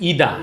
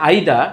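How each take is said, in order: First: ইদা opening on a long "ee"; American-style ইদা; American pronunciation. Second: আইদা opening on an "eye" vowel; British-style আইদা; British pronunciation. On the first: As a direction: say ইদা with "ee" as the first vowel. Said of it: "আমেরিকানরা বলে ইদা". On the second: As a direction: say আইদা with "eye" first and no final R. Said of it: "ব্রিটিশরা বলে আইদা". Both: Shown as a demonstration.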